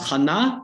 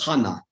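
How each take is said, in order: First: The stress falls in the older Hebrew position. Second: The stress falls in the Yiddish-influenced position. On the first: This is the form the revived language did not adopt. "You have not Hannah" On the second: This is the form the revived language actually uses.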